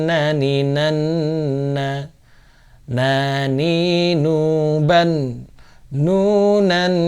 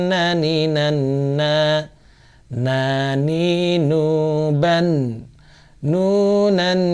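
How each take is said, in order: No difference in how they are said.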